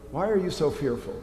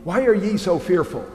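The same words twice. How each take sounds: First: Said in the usual way. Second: Put-on "ye" said as an old-style yee, lifted and savoured; King James reading. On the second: Shown as a demonstration. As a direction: relish the archaic "ye", a touch higher and fuller. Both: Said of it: "I love the ye".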